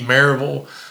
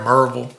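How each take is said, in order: First: The name is said in a standard way. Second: The name is said like East Tennessee locals.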